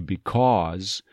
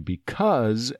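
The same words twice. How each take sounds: First: It is said with a New England accent. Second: It is said with a general American accent. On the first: "in the New England part of the U.S., up in the Northeast, they may say because" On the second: "for most Americans to say because"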